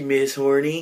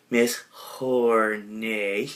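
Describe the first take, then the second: First: HORNY said with a short "ee" ending; mispronounced name. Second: HORNAY very drawn out, ending in "ay"; French-style name. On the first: Garth greeting her, mispronouncing it as Horny. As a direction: say Horny as HOR-nee, mangling the French name. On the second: Garth repeating the corrected name, slow drawn-out Hornay. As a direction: stretch Hornay slowly into hor-NAAY, softly. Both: Retold or imitated. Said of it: "No, no, it's Hornay".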